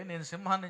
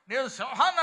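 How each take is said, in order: First: Said in the usual way. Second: Higher, louder mock shout; imitating a loud shout. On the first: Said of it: "ఒక మీటింగ్లో ఇట్లే". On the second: Preacher mimicking a man shouting at a meeting, loud. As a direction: play a man bellowing his claim. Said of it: "ఒక ఆయన గట్టిగా చెబుతున్నాడు".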